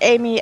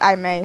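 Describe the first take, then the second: First: The name sounds like the common name Amy. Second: The name sounds like two separate parts, Ah-May. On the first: The speaker calls it wrong. "I will react to both Amy and I May" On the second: The speaker calls it right. "I said it right"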